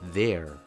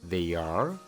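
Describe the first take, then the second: First: The words are merged into one contracted syllable. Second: Two separate full words are said. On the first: The speaker calls it right. "mejor di" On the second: The speaker calls it wrong. "En vez de decir"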